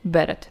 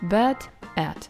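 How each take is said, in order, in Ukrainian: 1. Ці два слова звучать разом, як одне. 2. Ці два слова вимовляються окремо. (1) "А ти промовив його разом" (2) "ти не промовляв кожне слово окремо"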